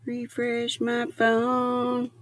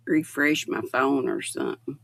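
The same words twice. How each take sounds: First: Slow, drawn-out Refresh my phone; half-talking to herself, slowed way down; slow musing. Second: Said in the usual way. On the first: Real, not acted. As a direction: repeat it slowly to yourself.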